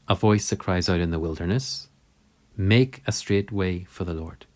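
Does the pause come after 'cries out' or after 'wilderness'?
after wilderness. The pause comes after the word wilderness. The voice is in the wilderness. "what we read in the Gospel"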